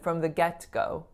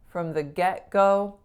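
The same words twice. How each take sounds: First: The T in get is fully released. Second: The T in get is unreleased. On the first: The speaker calls it wrong. "much less natural sounding if I said" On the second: The speaker calls it right. "the get being unreleased on that T"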